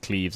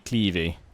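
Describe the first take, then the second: First: The name is said in the British way. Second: The name is said in the non-British way. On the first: This is the anglicised pronunciation. The speaker calls it wrong. "Cleves is the you know the British pronunciation" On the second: This is the proper local pronunciation. The speaker calls it right. "apparently Clevey is the uh, correct way to pronounce it"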